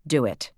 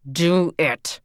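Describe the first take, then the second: First: Said in the usual way. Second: Louder, sterner repeated order; firmer command. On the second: A narrator's reading. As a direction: insist harder the second time.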